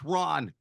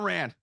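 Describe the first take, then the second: First: The vowel is an open 'ah' sound. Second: The vowel is a flat hard A. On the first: The speaker calls it right. "I slash Ron" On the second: The speaker calls it wrong. "not Ran"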